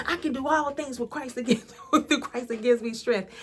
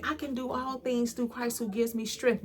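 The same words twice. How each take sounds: First: A reluctant, half-hearted mock recital, quick; mock sulky recital of the verse; grudging attitude. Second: Said in the usual way. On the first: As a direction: rattle it off grudgingly like you don't believe it, ending in a laugh. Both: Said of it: "But I would say it with such an attitude".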